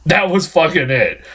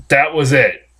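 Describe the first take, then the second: First: "fucking" punched, pitch up on "That was fucking it"; emphatic repeat. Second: Said in the usual way. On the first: Shown as a demonstration. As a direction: hit "fucking" hard and lift the pitch.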